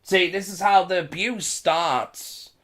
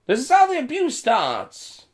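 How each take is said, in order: First: Said in the usual way. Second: "This is how the abuse starts" pitched much higher, urgent; urgent insistent warning on "how"; emphatic warning. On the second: Real, not acted. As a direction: raise the voice to hammer home "how". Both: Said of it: "I'm telling you this now".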